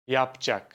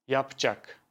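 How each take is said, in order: Both takes have the same delivery.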